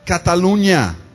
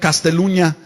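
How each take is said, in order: First: The word is said without an s, Cataluña. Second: The word is said with an extra s, Casteluña. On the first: The speaker calls it right. "el lugar era ese" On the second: The speaker calls it wrong. "la palabra la pronunció mal"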